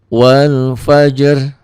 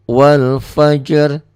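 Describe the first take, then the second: No difference in how they are said.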